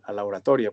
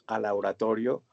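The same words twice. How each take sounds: First: "oratoria" said correctly, ending in -a; self-correction. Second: "oratorio" said by mistake, ending in -o; slip of the tongue. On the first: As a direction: fix the word to "oratoria" with a final a. (corrección: "oratoria" terminado en a) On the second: ("oratorio" dicho por error, terminado en o) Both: Real, not acted. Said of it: "perdón".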